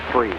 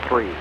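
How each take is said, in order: Both takes have the same delivery.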